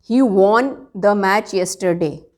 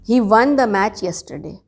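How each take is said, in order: First: 'Won' has an 'aw' vowel, like 'gone'. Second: 'Won' sounds exactly like the number one. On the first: The speaker calls it wrong. "वॉन is wrong" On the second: The speaker calls it right. "जैसे वन two three वाला वन बोलना है"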